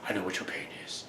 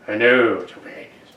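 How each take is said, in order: First: It is whispered. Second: It is spoken aloud in a low, projected voice.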